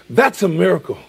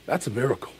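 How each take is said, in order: First: Said in the usual way. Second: Softer first take of the line; quiet. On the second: Shown as a demonstration. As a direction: say it under your breath.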